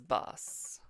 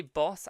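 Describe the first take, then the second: First: "bus" as the local way of saying boss; slowly demonstrated "bus" for boss; local pronunciation. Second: Said in the usual way. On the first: Shown as a demonstration. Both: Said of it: "We say boss as bus".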